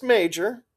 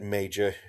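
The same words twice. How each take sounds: First: Major sung up high with a rise; teasing Major, pitched way up; playful high Major. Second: Said in the usual way. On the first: A narrator's reading. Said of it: "Crispy playfully". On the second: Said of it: "Joy Boy snapped".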